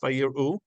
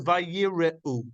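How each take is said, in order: First: The r runs straight into the final u. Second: A short e vowel follows the r. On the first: "you hear clearly the resh and the aleph" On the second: "you can either pause on that and go eh"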